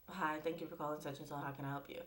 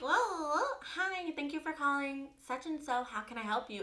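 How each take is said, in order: First: It is said in the speaker's natural voice. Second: It is said in a put-on white-sounding voice.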